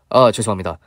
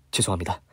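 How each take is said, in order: First: Said in the usual way. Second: Much softer, lower murmured sorry; softer, lower sheepish sorry; quiet apology. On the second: Retold or imitated. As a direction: mumble the apology under breath. Manager apologizing again.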